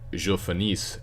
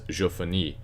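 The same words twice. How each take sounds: First: The final s sound is pronounced. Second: The final s sound is silent. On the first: The speaker calls it wrong. "even though it ends with an s, it's not je finis" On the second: The speaker calls it right. "you do not pronounce the last consonant"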